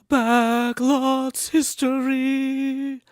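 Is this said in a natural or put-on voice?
put-on. It is said in an exaggerated character voice. "best Chef Netmug voice"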